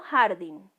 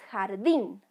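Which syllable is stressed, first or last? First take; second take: first; last. First: The stress is on the first syllable. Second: The stress is on the last syllable. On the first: The speaker calls it wrong. "no jardín" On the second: The speaker calls it right. "El sonido correcto es jardín"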